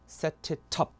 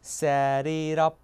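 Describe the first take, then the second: First: Both T sounds are crisp, clearly released Ts. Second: Both T sounds are soft flaps, like quick Ds. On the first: This is the British way. "영국은 그대로 T 갑니다. ... 이렇게요" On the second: This is the American way. "이 T 죽고 저 T 죽어요. 그래서 ... 이라고 바뀌죠"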